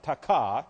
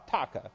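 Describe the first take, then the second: First: "taka" stressed on the second syllable, ta-KA; wrong-syllable stress. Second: "taka" stressed on the first syllable, TA-ka. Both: Shown as a demonstration. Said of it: "accent is actually on the first half".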